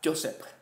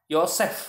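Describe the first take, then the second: First: It is said with an English-like J sound. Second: It is said the Indonesian way, starting with Y.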